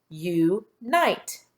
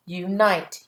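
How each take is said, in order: First: U and NITE said apart, a pause between; split into syllables. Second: Said in the usual way. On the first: Shown as a demonstration. Teacher tapping out syllables for pupils, split into syllables. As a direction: break Unite into "you", pause, "nite". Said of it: "Let's tap our syllables". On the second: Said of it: "Let's check your work".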